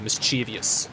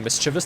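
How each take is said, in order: First: It has an extra 'ee' sound before '-ous'. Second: It ends plainly in '-vous' with no extra sound. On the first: The speaker calls it wrong. "they say uh, mischievous. ... it feels like there should be an extra letter" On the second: The speaker calls it right. "Instead of saying mischievous"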